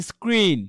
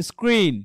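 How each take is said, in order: Both takes have the same delivery.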